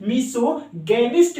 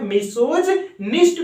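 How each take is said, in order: First: मिसोगैनिस्ट with a hard g, "miso-gainist"; hard-g pronunciation. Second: मिसोजिनिस्ट with a j sound, "miso-jinist"; alternative pronunciation. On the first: Teacher gives the other common reading, hard-g pronunciation. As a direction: say मिसोगैनिस्ट with g as in gain. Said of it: "अक्सर लोग जो है मिसोगैनिस्ट भी पढ़ते". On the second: Teacher repeats one accepted reading, alternative pronunciation. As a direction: say मिसोजिनिस्ट with j, not hard g. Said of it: "भी पढ़ते हैं". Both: Shown as a demonstration.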